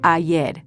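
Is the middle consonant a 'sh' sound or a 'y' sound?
y. The middle consonant is pronounced as a y sound. "instead of ayer"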